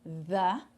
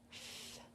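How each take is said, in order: First: "the" with a buzzing, voiced TH; TH com som. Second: "th" as pure air, no voice; TH sem som. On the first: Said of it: "é T H com som". ("the" com TH sonoro, vibrado) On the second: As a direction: blow a soft, voiceless "th". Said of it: "tem o T H sem som". ("th" soprado, sem voz) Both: Shown as a demonstration.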